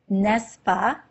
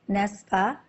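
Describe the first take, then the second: The two takes are said the same way.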